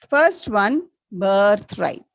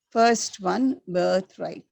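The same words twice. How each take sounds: First: Louder, First one rising, birthright falling; teacher announcing the answer loudly; loud recap. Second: Said in the usual way. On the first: Shown as a demonstration. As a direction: call it out to the whole class. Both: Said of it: "Once again, repeat".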